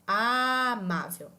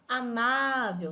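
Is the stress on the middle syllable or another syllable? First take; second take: another; middle. First: The stress is not on the middle syllable. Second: The stress is on the middle syllable. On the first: The speaker calls it wrong. "nós não falamos amável" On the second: The speaker calls it right. "nós podemos falar amável, nós podemos arrastar esse segundo A"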